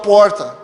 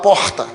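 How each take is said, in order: First: The R is pulled back, curled like a caipira R. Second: The R is plain, without the curled caipira sound. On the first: This is the speaker's own regional way of speaking. The speaker calls it wrong. "eu não podia falar porta" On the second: This is the way others expected the speaker to talk. The speaker calls it right. "tinha que falar porta"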